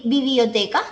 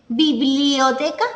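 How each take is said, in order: First: Biblioteca said as bi-bio-te-ca, dropping the l; child's simplified biblioteca. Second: Said in the usual way. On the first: Shown as a demonstration. Teacher to students, showing a child's bibioteca. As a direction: say biblioteca like a toddler, without the bl cluster. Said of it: "dicen bi". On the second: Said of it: "En vez de decir biblioteca".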